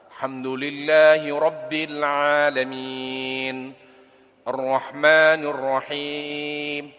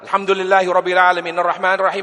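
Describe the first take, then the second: First: It is recited at a moderate, measured pace. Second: It is recited quickly with little lengthening. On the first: It is the best way to read the text. "tidak cepat dan tidak juga terlalu lambat" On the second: It covers much text in a short time. "Tapi cepat"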